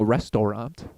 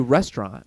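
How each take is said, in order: First: The word is said with three syllables. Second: The word is said with two syllables. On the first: This is how it is spelled but not said. "We're not saying restaurant" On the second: This is how people usually say it. "we just say restaurant"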